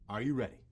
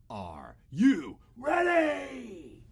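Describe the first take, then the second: First: It is said at normal volume. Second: It is yelled loudly.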